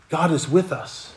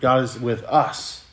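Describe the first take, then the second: First: The word with is stressed. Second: The word us is stressed. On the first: God is near and on our side. "Emphasis on with" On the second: God is present with every kind of person. "If I could emphasize that last word"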